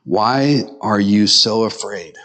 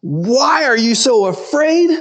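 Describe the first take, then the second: First: Low, slow, measured question; making a statement. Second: High, drawn-out mocking repeat; incredulous echo. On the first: Acted. Jesus to his disciples after the storm, calm statement. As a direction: put it slowly and low, like a statement. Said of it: "but he's making a statement". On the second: Disciples quoting Jesus back at him, incredulous. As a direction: throw the question back high and slow.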